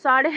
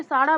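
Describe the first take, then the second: First: Says साढ़े with a final e sound; corrected word. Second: Says साढ़ा with a long final aa instead of साढ़े; the wrong form साढ़ा, ending in aa; slip of the tongue. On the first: Correcting her own slip for viewers, says साढ़े with a final e. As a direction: fix it to साढ़े, ending in e. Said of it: "ignore कर देना guys". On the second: Telling viewers the time, blurts the wrong word साढ़ा. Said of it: "साढ़ा बोल रहे हैं". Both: Real, not acted.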